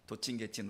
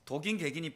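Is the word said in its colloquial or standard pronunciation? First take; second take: colloquial; standard. First: It is said in the colloquial pronunciation. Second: It is said in the standard pronunciation. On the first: "우리가 말 발음 때문에 그렇게 하는데" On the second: "표준말이라 이러더라고요"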